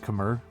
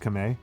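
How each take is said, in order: First: The word is said with an R sound. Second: The word is said without an R sound. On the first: The speaker calls it wrong. "it is not pronounced Khmer" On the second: The speaker calls it right. "the R is not pronounced as an R. It's Kame"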